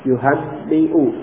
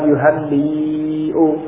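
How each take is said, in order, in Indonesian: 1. Vokal sebelum hamzah itu pendek. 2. Vokal sebelum hamzah itu panjang. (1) "Jadi membacanya pendek" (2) "Bukan. Kalau itu panjang"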